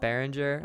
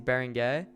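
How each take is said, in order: First: The name is said with English-style sounds. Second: The name is said with French-style sounds. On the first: The speaker calls it wrong. "I think I mispronounced his name. It's not Behringer" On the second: The speaker calls it right. "Obviously, it's Berenguer"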